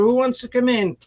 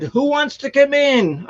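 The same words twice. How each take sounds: First: A repeated call to the cats, raised and pitched up. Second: Loud call to the cats, pitched up. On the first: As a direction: call the cats in again over the storm. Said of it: "I was banging on the door". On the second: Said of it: "And so I said". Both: Retold or imitated.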